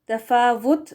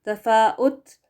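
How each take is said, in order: First: The middle consonant is a v sound. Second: A glottal stop comes before the u vowel. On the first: "वी लगाकर पढ़ना गलत होगा" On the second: "हमजा पेश लगाकर पढ़ना ये भी गलत होगा"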